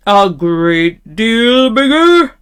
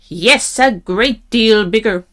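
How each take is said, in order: First: Loud, slow troll question, stretching each word; terrible troll voice. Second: Lightly voiced goat, quicker plain answer; middle-sized goat voice. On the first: Troll questioning the middle-sized goat, loud and slow. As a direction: draw out "great deal bigger" as a troll. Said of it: "in his great, terrible voice". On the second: Middle-sized goat assuring the troll, middling voice. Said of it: "in his middle-sized voice". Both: A narrator's reading.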